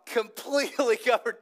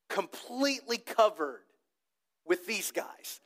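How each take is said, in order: First: Laughing in the middle of the phrase; amused, breaking into a laugh. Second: Said in the usual way. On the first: Real, not acted. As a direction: laugh through the word covered. Repeats the finding with a laugh.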